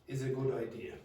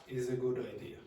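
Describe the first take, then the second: The two takes are said the same way.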